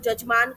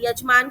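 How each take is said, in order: First: The word begins with a 'j' sound. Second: The word begins with a 'y' sound. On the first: The speaker calls it wrong. "यजमान को जजमान कर देना" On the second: The speaker calls it right. "य का ज कर देना"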